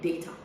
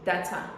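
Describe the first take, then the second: First: It is said the way British speakers say it. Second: It is said the way mostly Americans say it. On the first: "British say data" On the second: "it's also pronounced data, mostly by Americans"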